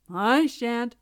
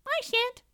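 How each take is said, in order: First: Loud, sturdy cock refusal; grumbling rooster. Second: Very high, tiny refusal; squeaky mouse. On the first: Cock refusing to fetch water, grumbling. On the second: Mouse refusing to fetch water, squeaky. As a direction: squeak out a sulky no. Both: A narrator's reading.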